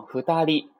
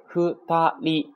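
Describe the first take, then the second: First: Said in the usual way. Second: ふたり slow and high, in three separate beats; kana by kana. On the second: Shown as a demonstration. Teacher introduces the word, ふたり syllable by syllable. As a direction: sound out ふ, た, り one by one. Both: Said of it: "读成ふたり啊".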